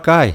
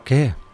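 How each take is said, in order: First: The vowel glides from a to i. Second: The vowel is one plain e sound. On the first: The speaker calls it wrong. "você não vai falar cai" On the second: The speaker calls it right. "você vai falar que"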